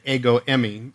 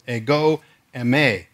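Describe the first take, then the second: First: The stress falls on an English-style syllable. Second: The stress falls on the Greek syllable. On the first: The speaker calls it wrong. "the emphasis on the wrong syllable because that's the way we want to read it to Englishize Greek" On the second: The speaker calls it right. "the actual Greek pronunciation is"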